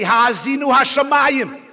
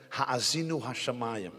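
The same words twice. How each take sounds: First: "Ha'azinu hashamayim" called out loud and lifted; speaking up. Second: Soft, low, held-back Ha'azinu hashamayim; speaking too low. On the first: Preacher showing how to address the heaven in youth, loud and lifted. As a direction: raise "Ha'azinu hashamayim" up, much louder, reaching upward. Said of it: "Speak up to them". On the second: Preacher showing how not to address youth, quiet and low. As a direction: murmur "Ha'azinu hashamayim" down, much softer and lower. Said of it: "you're speaking too low". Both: Shown as a demonstration.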